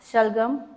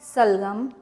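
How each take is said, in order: First: The word begins with an 'sh' sound. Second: The word begins with a plain 's' sound. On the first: The speaker calls it right. "ये शक्कर वाले श का जो हम उपयोग करते हैं" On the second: The speaker calls it wrong. "ऐसा तो नहीं कह सकते"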